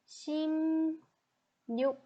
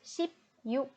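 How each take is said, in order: First: The first syllable ends with an m sound. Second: The first syllable ends with a p sound. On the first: The speaker calls it right. "it should be 심 육" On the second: The speaker calls it wrong. "you will read it as sheep you"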